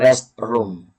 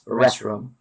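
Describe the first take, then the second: First: The T is pronounced, like two separate words. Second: The T is silent, blended into one word. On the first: The speaker calls it wrong. "Hindi siya rest room" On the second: The speaker calls it right. "silent T. One word"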